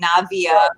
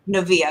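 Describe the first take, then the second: First: The name rhymes with Nadia. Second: The name does not rhyme with Nadia. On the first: The speaker calls it right. "like Nadia, but with a V" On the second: The speaker calls it wrong. "instead of"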